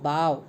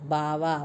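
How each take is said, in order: First: The word ends on a consonant sound. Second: The word ends on a vowel sound.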